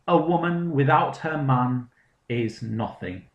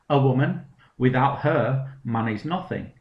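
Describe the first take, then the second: First: The phrase breaks after 'man', not after 'her'. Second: The phrase breaks after 'her', before 'man'.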